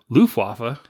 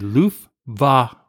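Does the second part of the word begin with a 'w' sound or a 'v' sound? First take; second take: w sound; v sound. First: The second part begins with a 'w' sound. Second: The second part begins with a 'v' sound. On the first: The speaker calls it wrong. "you guys keep saying Luftwaffe. And he goes, that's not how you say it" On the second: The speaker calls it right. "It's actually Luftwaffe. ... instead of me saying wah, it's actually a V"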